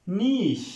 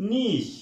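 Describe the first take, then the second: No difference in how they are said.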